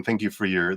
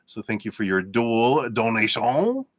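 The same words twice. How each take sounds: First: Said in the usual way. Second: Mock French accent on the thanks; hammed-up French accent thanking a donor. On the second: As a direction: put on a playful French accent. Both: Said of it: "That's my French accent".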